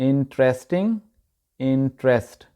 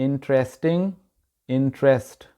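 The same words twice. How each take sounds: The two takes are said the same way.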